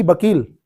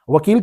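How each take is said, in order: First: बकील with an opening B, "bakeel"; B instead of V. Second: वकील said with an opening V, "vakeel"; V, not B. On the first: Teacher showing what local people say, बकील said as "bakeel". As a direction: start बकील on a B sound. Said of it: "लोग वकील को वकील कहते हैं". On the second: Teacher contrasting va and ba, वकील said as "vakeel". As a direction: start वकील on a V sound. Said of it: "वा की बा". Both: Shown as a demonstration.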